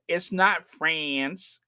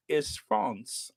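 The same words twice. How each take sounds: First: "France" said the English way, flat a as in "fans"; plain American "France", short a; anglicized France. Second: "France" said the French way, nasal vowel, softer; nasal French "France" as the corrector says it. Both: Retold or imitated. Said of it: "humiliated by someone who said".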